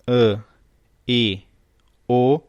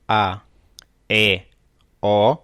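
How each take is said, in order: First: "E, I, O" each said as a closed vowel, like â in lâmpada, ê in pêssego, ô in avô. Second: "A, E, O" each said as an open vowel, A as in pá, E as in pé, O as in pó. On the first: Teacher showing the class the closed vowels. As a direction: close each of "E, I, O" tightly, one by one. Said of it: "Quando a pronúncia é fechada". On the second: Teacher showing the class the open vowels. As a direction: sound "A, E, O" wide open, one by one. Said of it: "quando a pronúncia é aberta". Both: Shown as a demonstration.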